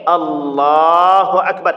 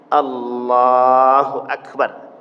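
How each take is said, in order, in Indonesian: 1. Frasa itu diucapkan dengan panjang yang biasa. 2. Frasa itu sengaja dipanjangkan dan diulur.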